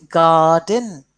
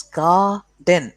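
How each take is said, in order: First: Said in the usual way. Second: Garden sounded out as "gar... den"; split into syllables. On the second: Shown as a demonstration. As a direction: separate garden into two beats, gar and den. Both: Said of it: "two syllables".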